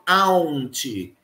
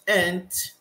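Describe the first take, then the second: First: The vowel is said with a 'u' sound. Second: The vowel is said without a 'u' sound. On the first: The speaker calls it wrong. "Repara que eu não falo aunt" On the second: The speaker calls it right. "a gente não pronuncia esse u"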